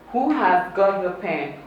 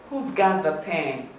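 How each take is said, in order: First: Who and has are said as two full words. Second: Who and has merge into one short syllable.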